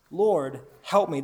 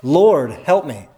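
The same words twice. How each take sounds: First: Said in the usual way. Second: Slow, loud plea, each word drawn out; emphatic cry. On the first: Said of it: "But she says". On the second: Shown as a demonstration. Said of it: "This cry is even more emphatic".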